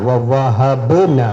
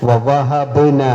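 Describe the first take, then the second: No difference in how they are said.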